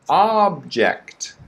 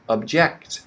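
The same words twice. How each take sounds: First: The stress is on the first syllable. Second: The stress is on the second syllable. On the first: It names a thing. "The first one is object. ... It's a thing" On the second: It means to disagree. "The second one is a verb is object"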